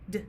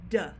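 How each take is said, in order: First: The d is clipped with no vowel after. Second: The d is followed by an added uh vowel. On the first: The speaker calls it right. "So the sound for D would be d" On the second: The speaker calls it wrong. "we have a tendency to say that the sound is duh"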